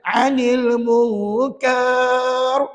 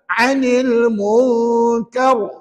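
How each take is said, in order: First: The final sound is stretched out long. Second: The final sound is short, not stretched. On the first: The speaker calls it wrong. "tidak boleh dibaca panjang. Jangan pula pandai-pandai. ... Ada pelajar baca gitu ada" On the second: The speaker calls it right. "tengok ustaz buat"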